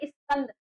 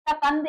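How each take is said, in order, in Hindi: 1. छोटी 'i' ध्वनि 's' से पहले आती है। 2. शब्द सीधे 's' से शुरू होता है, 'i' नहीं है। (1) "उच्चारण में सा से पहले ई की ध्वनि आती है" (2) "सकंद इसको नहीं पढ़ेंगे"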